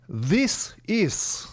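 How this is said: It is said with a Russian accent.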